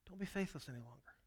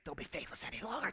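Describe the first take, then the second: First: It sounds gentle and reassuring. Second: It sounds stern and scolding.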